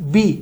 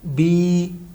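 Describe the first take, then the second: First: The vowel is held briefly, one beat. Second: The vowel is held twice as long. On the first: "इसको हमने एक हरकत के बराबर" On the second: "इसको हमने दो हरकत के बराबर खींचना है"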